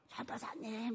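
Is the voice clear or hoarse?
hoarse. The voice is rough and hoarse. The person has been praying hard. The speaker calls it right. "이렇게 불러야 돼요"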